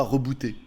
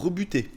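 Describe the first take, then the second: First: «rebooter» dit à l'anglaise, le oo sonne « ou »; prononciation anglaise. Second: «rebuter» dit à la française, u fermé comme dans « bu »; bonne prononciation. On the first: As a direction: prononcez «rebooter» comme l'anglais boot, avec un son « ou ». («rebooter» à l'anglaise, oo comme « ou ») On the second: («rebuter», voyelle u bien française) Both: Shown as a demonstration. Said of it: "et non pas rebooter".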